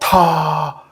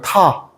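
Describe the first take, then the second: First: It is said with breath leaking at onset. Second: It is said plainly with no extra breath. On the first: "바람 새는 소리를" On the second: "H가 없으면 그냥 타"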